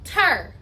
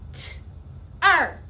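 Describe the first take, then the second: First: Said in the usual way. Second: "T-er" as a bare t, a gap, then er; segmented sounds. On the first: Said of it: "I'm gonna pound that syllable". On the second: Shown as a demonstration. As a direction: split "T-er" into two isolated phonemes. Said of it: "Two phonemes".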